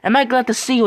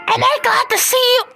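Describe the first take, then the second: First: It is said in the speaker's normal voice. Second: It is said in a strained character voice.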